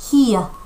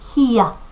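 First: It is said in a British accent. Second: It is said in a British accent.

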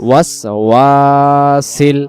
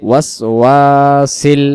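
The two takes are said the same way.

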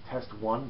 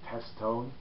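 First: The name is split as 'test one'. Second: The name is split as 'test tone'. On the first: This is probably the usual pronunciation. "I think you pronounce it as Test One" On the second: This is the speaker's own favored pronunciation. "but I always pronounce it as Test Tone"

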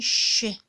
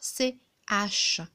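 First: A single hushing sound is spoken for both letters. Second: Two separate letter names are spoken one after another. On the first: The speaker calls it right. "Non, on dit ch" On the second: The speaker calls it wrong. "On ne peut pas dire C-H"

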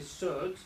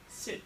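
First: The vowel sounds like the 'u' in 'up'. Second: The vowel sounds like the 'i' in 'it'. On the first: The speaker calls it wrong. "I don't say sut" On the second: The speaker calls it right. "I say sit"

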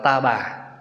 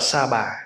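First: The first word begins with a t sound. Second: The first word begins with an s sound. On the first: This is the southern and central reading. "khi người miền Nam và người Trung đọc á, thì đọc là ta bà" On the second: This is the northern reading, closer to the Sanskrit. "Người Bắc đọc là Sa bà"

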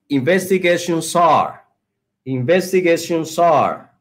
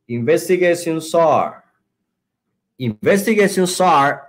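The two takes are said the same way.

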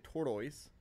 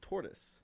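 First: The second syllable sounds like 'toys'. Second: The second syllable sounds like 'tus'. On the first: The speaker calls it wrong. "You don't say tortoise" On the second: The speaker calls it right. "It's tortoise. So it's gotta be Blastus"

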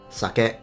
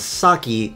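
First: It is said with a Japanese-sounding pronunciation. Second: It is said with an English-sounding pronunciation. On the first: "whereas the Japanese pronounce it sake" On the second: "he pronounces the Japanese rice wine as sake"

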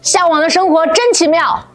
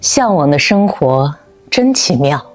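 First: It is said in a young boy's voice. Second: It is said in a mature woman's voice.

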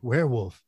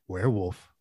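First: It is said as a statement, falling. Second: It is said as a question, rising.

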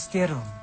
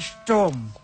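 First: An extra vowel is inserted after the s. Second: No vowel is inserted after the s. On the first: The speaker calls it wrong. "Ini bukan Sterum" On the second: The speaker calls it right. "Ini Sturm"

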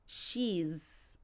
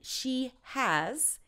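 First: It is one syllable ending in a z sound. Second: It is said as two full words. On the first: "is she's, It's a bit of a Z sound" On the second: "And she has"

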